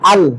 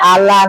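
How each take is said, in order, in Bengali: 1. সিলেবলটি L ধ্বনিতে শেষ হয়। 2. L ধ্বনির পরে একটি স্বরধ্বনি যোগ হয়। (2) "আলা না"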